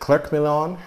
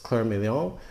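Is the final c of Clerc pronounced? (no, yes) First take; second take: yes; no. First: The final c of Clerc is pronounced. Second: The final c of Clerc is not pronounced. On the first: The speaker calls it wrong. "I've always said Clerc Milon, but I think that's incorrect" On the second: The speaker calls it right. "The C is silent. It's Clerc Milon"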